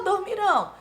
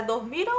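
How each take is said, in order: First: "dormirão" with final RÃO stressed; stress on last syllable. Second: "dormiram" with MI stressed; stress on penultimate syllable. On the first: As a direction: hit the closing RÃO of "dormirão". ("dormirão" com o RÃO final forte) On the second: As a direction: hit MI in "dormiram", ending unstressed. ("dormiram" com o MI forte) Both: Shown as a demonstration. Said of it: "a pronúncia é".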